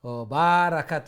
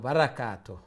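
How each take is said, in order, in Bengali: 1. 'ba'-র স্বরধ্বনিটি টেনে দীর্ঘ করা হয়। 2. 'ba'-র স্বরধ্বনিটি হ্রস্ব রাখা হয়। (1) "না" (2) "বা শর্ট"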